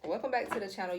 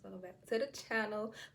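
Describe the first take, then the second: First: It is said in a loud voice. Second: It is said quietly, almost mumbled.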